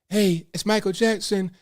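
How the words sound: It is said in an imitated singer's voice.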